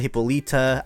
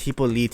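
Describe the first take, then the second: First: The name ends with an 'uh' vowel. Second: The name ends without an 'uh' vowel. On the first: This is the version many people use. The speaker calls it wrong. "I know a lot of you guys are gonna say Hippolyta" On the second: This is the version the speaker believes is correct. The speaker calls it right. "I'm pretty sure it's Hippolyte"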